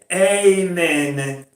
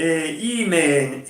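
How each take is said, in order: First: The first vowel is an open A sound. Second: The first vowel sounds close to an I. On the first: The speaker calls it wrong. "non è Amen" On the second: The speaker calls it right. "è Imen"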